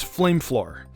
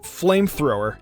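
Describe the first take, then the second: First: The word ends with a 'floor' sound. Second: The word ends with a 'thrower' sound. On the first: The speaker calls it wrong. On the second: The speaker calls it right.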